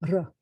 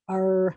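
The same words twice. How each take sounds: First: The r is a gentle rolled trill. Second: The r is a smooth sound without vibration. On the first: This is the official announcer pronunciation. "it was supposed to be a gentle trill" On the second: This is how most Americans say it. "most Americans, they say the letter R like that"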